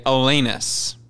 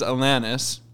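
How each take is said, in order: First: "[name]" with middle vowel as in "lane"; long-a pronunciation. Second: "[name]" with middle vowel as in "man"; short-a pronunciation. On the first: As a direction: say "[name]" as uh-LAY-niss. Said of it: "Or some people say". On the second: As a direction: say "[name]" as uh-LAN-iss. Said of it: "here's what it is". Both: Shown as a demonstration.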